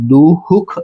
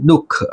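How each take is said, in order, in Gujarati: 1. વધારાના સ્વર સાથે h અવાજ સંભળાય છે. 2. શબ્દની અંદર કોઈ h અવાજ સંભળાતો નથી. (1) "અહીંયા દુહુખ એમ બોલતા નથી" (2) "આપણે શું બોલીએ દુઃખ"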